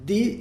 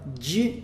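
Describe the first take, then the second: First: The d is dental, tongue at the teeth. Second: The d is palatal, like a soft j. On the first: "Di é dental" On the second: "di é palatal"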